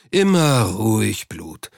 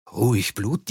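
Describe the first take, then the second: First: Unruffled, drawn-out reassurance; keep-calm drawl. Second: Questioning echo with a rising tune; incredulous echo. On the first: Cox soothes the agitated banker. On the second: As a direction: throw it back in disbelief. Banker throws the phrase back incredulously. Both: A narrator's reading.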